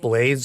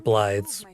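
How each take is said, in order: First: The name sounds exactly like the word blade. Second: The name does not sound like blade. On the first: The speaker calls it wrong. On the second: The speaker calls it right.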